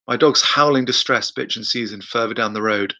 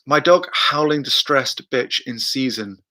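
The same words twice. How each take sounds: First: Said in the usual way. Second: Slow, stumbling read of a viewer's comment; halting first read. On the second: Shown as a demonstration. Reading a viewer's question aloud, slow and halting. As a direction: feel your way through the words slowly. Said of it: "My dog's howling ... down the road".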